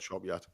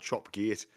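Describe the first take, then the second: First: The second word is said like 'yat'. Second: The second word is said like 'gate'. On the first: This is what the locals call it. "it gets called Chop Yacht" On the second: This is the official name as written. "it's called Chop Gate"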